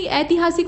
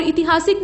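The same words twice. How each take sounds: First: ऐतिहासिक starting with ai; correct form. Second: ऐतिहासिक starting with short i; wrong form. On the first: Teacher correcting it, ऐतिहासिक starting "aiti". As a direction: say ऐतिहासिक as "aitihaasik". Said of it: "ऐतिहासिक होता है". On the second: Teacher showing the mistake, ऐतिहासिक starting "iti". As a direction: say ऐतिहासिक as "itihaasik". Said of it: "नहीं ऐतिहासिक होता है". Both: Shown as a demonstration.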